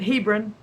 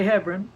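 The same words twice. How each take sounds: First: Hebron said as HEE-brun; first vowel of Hebron like "he"; long-E pronunciation. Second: Hebron said as HEB-run; first syllable of Hebron rhymes with "web"; short-E pronunciation. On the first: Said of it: "pronounce it Hebron". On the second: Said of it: "but I say Hebron". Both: Shown as a demonstration.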